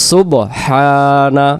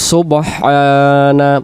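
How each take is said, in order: First: The h sound is clearly pronounced mid-word. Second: The same.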